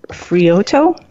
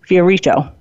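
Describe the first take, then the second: First: The name is said with three syllables. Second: The name is said with four syllables. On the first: The speaker calls it wrong. "I think I'm pronouncing that wrong" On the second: The speaker calls it right. "Her name is Carol Marie Fiorito"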